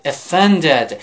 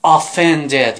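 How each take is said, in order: First: "offended" with a weak schwa at the start; correct pronunciation. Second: "offended" with a full "o" at the start; mispronounced first vowel. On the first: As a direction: reduce the first vowel of "offended" to a light "uh". («offended» با صدای کوتاه و ضعیف در اول) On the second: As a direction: open "offended" on a clear, rounded first vowel. («offended» با «آ»ی کشیده در اول) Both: Shown as a demonstration. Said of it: "این تلفظ غلطه".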